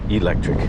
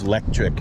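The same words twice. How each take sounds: First: The word starts with a vowel before the L. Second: The word starts directly with the L sound. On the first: The speaker calls it wrong. "not electric" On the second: The speaker calls it right. "L E C T R I C"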